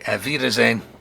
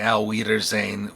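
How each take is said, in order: First: The W is said as a V sound. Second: The W is said as an English W sound. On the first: The speaker calls it right. "W produces a V sound" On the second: The speaker calls it wrong. "we don't say Auf Wiedersehen"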